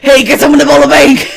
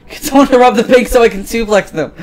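First: Very high, loud holler; full shout. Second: High-pitched, raised voice; eager demand. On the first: Bored police chief calling for a bank robbery, high full shout. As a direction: bellow it across the street, pitched way up. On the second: Bored police chief wanting a bank robbery, high eager demand. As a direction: push the wild idea, pitched up but short of a shout. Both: Acted.

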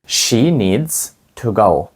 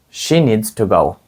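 First: Slow, word by word; slow teacher demo; slow model sentence. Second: Said in the usual way. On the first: Shown as a demonstration. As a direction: say it slowly for the class to copy. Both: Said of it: "Скажіть, їй потрібно йти".

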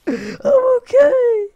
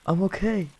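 First: Very high, loud crying squeal; squealed, tearful fake breakdown; mock wail. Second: Small high-pitched voice; high voice, putting on okay; high reassurance. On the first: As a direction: drag it out into a hammed-up sob. Falls apart after crashing in game. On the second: Pretend. Reassures after crashing in game.

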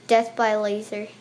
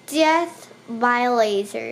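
First: Said in the usual way. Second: Death by laser drawn out slowly, rising at the end; slow dramatic repeat. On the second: Real, not acted. Gamer echoing his own death message, slow and mock-solemn.

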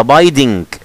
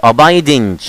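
First: "abiding" said slowly with a hard g at the end; "abiding" slow, closing on ng plus an audible g; wrong abiding with g. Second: "abiding" with the final g silent, ending on n; correct abiding. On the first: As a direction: drag out "abiding" and sound the final g. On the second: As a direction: say "abiding" as abaidin, no g sound. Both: Shown as a demonstration. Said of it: "ما ننطقش الجي".

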